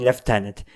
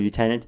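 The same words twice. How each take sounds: First: It is said the British way, lef-tenant. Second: It is said the American way, loo-tenant.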